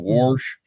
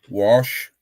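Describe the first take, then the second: First: The word is said in a casual regional pronunciation. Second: The word is said in a standard pronunciation. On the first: This is how the speaker himself says it. "I said" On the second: This is the educated way to say it. "instead of"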